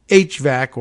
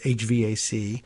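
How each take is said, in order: First: It is said as a single word. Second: It is said letter by letter.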